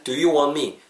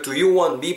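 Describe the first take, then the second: First: "want me" linked as "wan-me"; T dropped. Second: "want me" with the final T of "want" clearly released; T pronounced. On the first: Teacher shows the natural form, "want me" with no T. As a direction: drop the T of "want" and glide into "me". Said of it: "T 사운드가 탈락되고". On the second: Teacher shows students the full form of "want me", T pronounced. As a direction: say "want" fully, T and all, before "me". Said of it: "want me에서 T 사운드가 탈락되고". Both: Shown as a demonstration.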